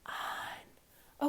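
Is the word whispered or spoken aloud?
whispered. It is whispered with no voice.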